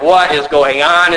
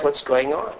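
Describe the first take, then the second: First: Mildly exasperated, WHAT stressed; acted exasperation. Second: Softly mumbled, baffled question; puzzled mumbling. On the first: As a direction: act out elders who are now openly baffled. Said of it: "at this point, they're like". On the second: Acted. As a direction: act out elders mumbling in confusion, much softer. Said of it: "They're mumbling, scratching their heads".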